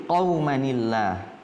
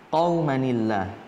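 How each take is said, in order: First: The words are joined with a 'ni' sound. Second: The same.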